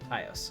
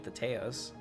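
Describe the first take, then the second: First: The first syllable sounds like 'Thai'. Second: The first syllable does not sound like 'Thai'. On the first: The speaker calls it right. "like Thai food" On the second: The speaker calls it wrong. "I hope I'm saying that right"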